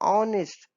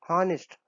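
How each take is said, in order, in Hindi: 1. शब्द स्वर से शुरू होता है, h नहीं है। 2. शब्द की शुरुआत में साफ़ h ध्वनि सुनाई देती है। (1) "एन ऑनेस्ट, ना कि हॉनेस्ट" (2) "हॉनेस्ट तो होता नहीं"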